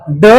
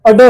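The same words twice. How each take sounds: First: Said in the usual way. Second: अड said with a short a before the ड; sounded with a leading a. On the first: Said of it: "ड बोलते हैं". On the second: Shown as a demonstration. Teacher showing students how ड is pronounced. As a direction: say अड, not ड, with the a sound up front. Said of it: "शुरू में अ की sound add हो जाती है".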